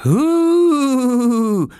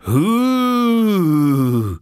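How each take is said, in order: First: High, drawn-out "hooo"; ghostly hoot. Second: Long loud "hooo" sliding downward; a bigger, lower-pitched spook howl; deeper ghostly hoot. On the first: Oskar haunting little Lars's cot, high ghostly hoot. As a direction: hoot like a spook in a high, loud voice. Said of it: "machte Oskar lauter und mit einer noch tieferen Stimme". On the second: Oskar creeping closer to Lars, deeper ghostly hoot. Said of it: "lauter und mit einer noch tieferen Stimme". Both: Acted.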